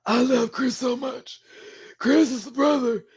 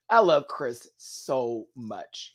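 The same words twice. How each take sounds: First: Imitating the brother Chris, pitched way up; Chris impression. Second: Said in the usual way. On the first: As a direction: slip into Chris's high sing-song voice. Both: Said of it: "He talks like this".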